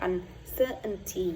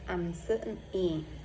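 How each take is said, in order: First: The middle t sound is dropped. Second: The same.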